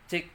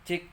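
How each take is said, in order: The two takes are said the same way.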